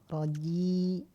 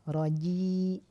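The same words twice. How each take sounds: Both takes have the same delivery.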